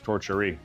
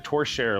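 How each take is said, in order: First: The word ends with an extra 'ee' sound. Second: The word ends without an extra 'ee' sound. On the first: The speaker calls it wrong. "I thought it was Torcherie" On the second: The speaker calls it right. "This is the Torchère lamp"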